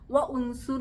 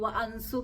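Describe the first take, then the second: First: An extra u vowel is sounded after wa. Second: An extra a vowel is sounded after wa. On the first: "വ ഉൻസുർ എന്നൊന്നും ആരും പറയരുത്" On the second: "വ അൻസുർ എന്നൊന്നും ആരും പറയരുത്"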